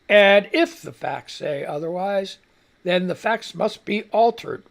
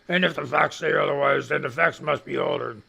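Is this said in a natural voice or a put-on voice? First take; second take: natural; put-on. First: It is said in a natural, ordinary voice. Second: It is said in a put-on imitation voice.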